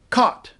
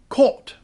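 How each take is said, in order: First: It has the merged Canadian vowel. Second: It has the separate British vowel. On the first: "In Canadian English, we have what is known as a merger" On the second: "But in England, they say this word as caught"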